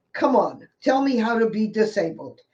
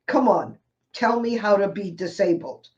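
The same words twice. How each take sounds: First: A wry, challenging plea. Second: A wry, challenging plea said again. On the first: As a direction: dare the audience to answer. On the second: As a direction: dare the audience once more. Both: Real, not acted. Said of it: "You have to laugh".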